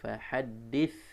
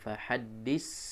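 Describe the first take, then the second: First: The final consonant is a soft th sound. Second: The final consonant is a hissing s sound. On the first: The speaker calls it right. "tapi fahaddits" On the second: The speaker calls it wrong. "Bukan fahaddis"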